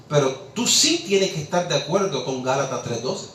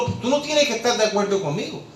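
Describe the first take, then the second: First: "sí" punched as the contrast; stress on SÍ. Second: "no tienes" pitched higher, conceding the point; contrastive denial. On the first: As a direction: hit "sí" hard, then settle lower. Contrasts "sí" against "no. (énfasis marcado en "sí") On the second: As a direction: lift "no tienes" high before the contrast. Contrasts "no" against "sí. ("no tienes" con tono alto, concediendo) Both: Real, not acted.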